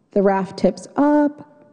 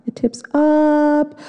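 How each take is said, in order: First: Said in the usual way. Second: Slow, high "It tips up"; rising suspense. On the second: Acted. Suspense build on the rapid.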